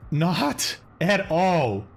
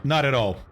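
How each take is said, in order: First: Not at all stretched very slowly, each word weighted; drawn out. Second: Said in the usual way. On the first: Shown as a demonstration. Repeating it slowly to the viewer, stretched out and emphatic.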